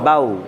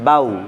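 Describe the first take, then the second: No difference in how they are said.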